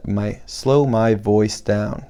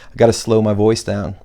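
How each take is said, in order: First: Drawn out slow, each word stretched; deliberately slow delivery so every word lands. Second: Said in the usual way. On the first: Shown as a demonstration. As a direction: say it slowly on purpose, like a demo. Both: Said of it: "I have to slow my voice".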